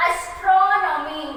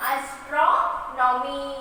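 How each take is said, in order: First: Astronomy in one piece, TRO stretched and strong; slow, whole-word astronomy with stress on TRO; stress on vowel. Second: Astronomy very slowly, split as "astro... nomy"; teacher's slow syllable-by-syllable astronomy; stressed syllable broken out. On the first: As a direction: lean hard on the O in "tro" of astronomy. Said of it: "give the stress to the vowels". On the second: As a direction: draw out astronomy in two parts, pausing after TRO. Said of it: "Here we have given the stress". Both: Shown as a demonstration.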